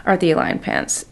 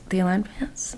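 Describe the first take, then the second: First: Said in the usual way. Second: Hushed reverent whisper of the name. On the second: Shown as a demonstration. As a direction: breathe the name like a secret. Whispered repeat of product name.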